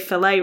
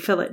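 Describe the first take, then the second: First: It is said the American way. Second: It is said the British way.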